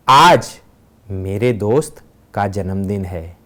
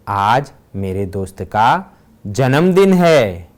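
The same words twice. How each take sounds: First: The stress is on आज. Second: The stress is on जन्मदिन.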